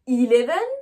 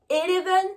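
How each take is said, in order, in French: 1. La première voyelle se prononce 'ee'. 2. La première voyelle se prononce 'eh'. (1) "mon E, je l'ai bien prononcé I" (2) "je ne dis pas eleven"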